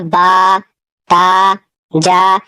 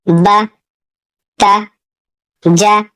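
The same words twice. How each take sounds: First: बा ता जा drawn out long, as the mistake; long vowels shown as an error; stretched syllables, wrong way. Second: ब त ज said short, no stretching; quick short fatha sounds; short syllables, right way. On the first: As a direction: drag बा, ता, जा out. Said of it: "इस तरह नहीं पढ़ना है". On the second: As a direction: clip ब, त, ज quickly. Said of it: "इसे खींचकर नहीं पढ़ना है". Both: Shown as a demonstration.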